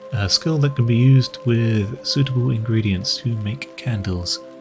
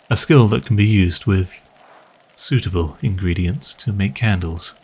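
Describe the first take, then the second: First: It is read with no pause before 'suitable'. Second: There is a meaningful pause before 'suitable'.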